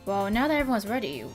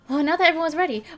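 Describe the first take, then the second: First: It is said in the speaker's plain voice. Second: It is said in a put-on character voice. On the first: The speaker calls it wrong. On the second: The speaker calls it right.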